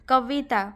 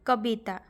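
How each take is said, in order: First: The middle consonant is a v sound. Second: The middle consonant is a b sound. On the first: This is the Hindi pronunciation. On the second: This is the Odia pronunciation.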